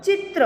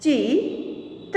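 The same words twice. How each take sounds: First: Said in the usual way. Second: Slow, each sound drawn out, rising at the end; slow drawn-out reading. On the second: Shown as a demonstration. Teacher slowly sounding out a word for students, drawn out. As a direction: stretch the word slowly for the class. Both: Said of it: "आगे देखें".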